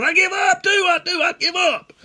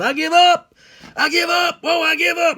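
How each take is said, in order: First: Very high, loud, insistent holler; hollered surrender back. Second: Very high, loud holler; hollered surrender. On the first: Boy answering the old man that he gives up too, high holler. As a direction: yell it back high and fast. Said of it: "And I hollered". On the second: Old hunter giving up to his pursuer in the woods, high holler. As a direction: cry out in a high, panicked-sounding yell. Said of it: "He hollered". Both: Retold or imitated.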